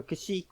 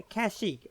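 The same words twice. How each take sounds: First: Kashyyyk said kuh-SHEEK, reduced first vowel; alternative pronunciation. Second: Kashyyyk said KASH-eek, full first vowel; first pronunciation. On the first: Offering viewers the other way to say the planet, Kashyyyk as kuh-SHEEK. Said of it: "I always say Kashyyyk". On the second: Offering viewers one way to say the planet, Kashyyyk as KASH-eek. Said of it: "however you want to say it". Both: Shown as a demonstration.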